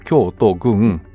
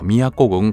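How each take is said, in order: First: It is pronounced Kyōto-gun. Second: It is pronounced Miyako-gun. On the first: This is the literal reading of the characters. "漢字で言うと京都郡" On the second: This is the actual local reading of the name. "読み方は宮古郡神田町だそうです"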